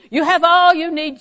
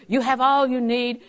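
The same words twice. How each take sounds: First: Louder, higher proclamation; emphatic. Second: Said in the usual way. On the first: Real, not acted. Preacher proclaiming to the congregation, louder and emphatic. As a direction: drive the point home.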